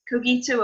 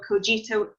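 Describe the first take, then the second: First: The g is pronounced as a hard g. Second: The g is pronounced as a soft g. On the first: "a hard G" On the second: "a soft one"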